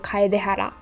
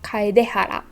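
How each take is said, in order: The two takes are said the same way.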